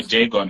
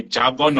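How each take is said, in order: First: "jargon" said as JAY-gon; alternative pronunciation. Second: "jargon" with an open AH, as jah-gon; pronunciation option. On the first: Host unsure of the word, "jargon" as JAY-gon. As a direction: give "jargon" a long AY in the first syllable. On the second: Host asking pilot about pronunciation, "jargon" with AH. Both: Shown as a demonstration. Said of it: "How do you pronounce it?".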